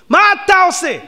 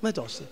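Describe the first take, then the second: First: Much higher and louder on אתה; indignant shout at the mourner. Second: Said in the usual way. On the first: Shown as a demonstration. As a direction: demand מה אתה עושה with force.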